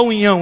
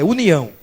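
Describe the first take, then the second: First: "união" collapsed into "unhão"; mock-wrong "união", like "unhão"; mispronunciation. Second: "união" said properly as u-ni-ão; corrective, clearly articulated "união"; correct pronunciation. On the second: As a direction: give "união" its separate n and i. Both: Shown as a demonstration. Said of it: "Não fala união".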